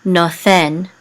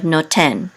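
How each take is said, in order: First: "nothen" with a soft th in the middle; ancient TH sound. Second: "noten" with a hard t in the middle; modern T sound. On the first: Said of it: "it's pronounced as a T H". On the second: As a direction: say "noten" with T, not TH. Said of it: "instead of noten". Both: Shown as a demonstration.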